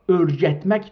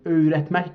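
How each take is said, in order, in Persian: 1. صامت وسط یک صدای گ سخت است. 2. صامت وسط یک غلت نرم است. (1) "این گ اینجا ارجتمک دیگه نخونیم" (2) "öğretmek بخونیم بهتر"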